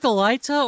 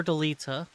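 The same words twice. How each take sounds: First: Delita with "lie" in the middle; Delita, middle vowel rhyming with eye; long-i pronunciation. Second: Delita with "lee" in the middle; Delita, middle vowel rhyming with see; long-ee pronunciation. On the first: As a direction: say Delita as duh-LIE-tuh. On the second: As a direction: say Delita as duh-LEE-tuh. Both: Shown as a demonstration. Asks which pronunciation is right.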